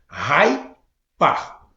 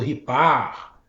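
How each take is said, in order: First: The first syllable sounds like 'rye'. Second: The first syllable sounds like 'ree'. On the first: The speaker calls it right. "é Hypar. Então agora acho que eu estou pronunciando correto" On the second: The speaker calls it wrong. "eu tava falando errado, eu tava falando Ripar"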